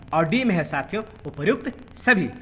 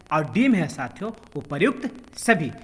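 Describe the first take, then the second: Both takes have the same delivery.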